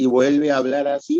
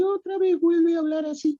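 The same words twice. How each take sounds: First: Said in the usual way. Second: Very high-pitched second voice; bitonal voice, high tone. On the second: Shown as a demonstration. Doctor demonstrating a patient's bitonal voice, the high tone. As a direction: jump right up into a thin high register. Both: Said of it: "tiene dos tonos de voz".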